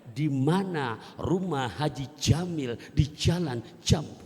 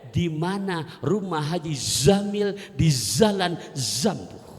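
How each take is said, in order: First: The names begin with a j sound. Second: The names begin with a z sound. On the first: "Saking fasihnya melafalkan huruf jim" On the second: "dia mau melafalkan huruf zai"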